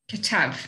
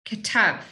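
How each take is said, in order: The two takes are said the same way.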